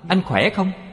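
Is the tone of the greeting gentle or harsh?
harsh. The greeting sounds curt, harsh and haughty. The listener feels put off and annoyed. The speaker calls it wrong. "hết mặt lên nói"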